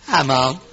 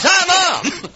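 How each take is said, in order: First: Low-pitched mock greeting to camera; imitated football giant. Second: High-pitched mock greeting; mocking imitation. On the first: Preacher imitating a huge footballer on television, mock greeting. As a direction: lightly play the huge player, pitched low. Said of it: "camera points to him and he goes". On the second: Preacher complaining about players greeting only mothers, mocking imitation. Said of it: "I know it's always".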